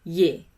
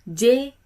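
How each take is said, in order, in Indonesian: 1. Nama hurufnya diawali bunyi Y. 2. Nama hurufnya diawali bunyi J. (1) "mengucapkan huruf J dalam bahasa Belanda itu Y" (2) "huruf J dalam bahasa Indonesia"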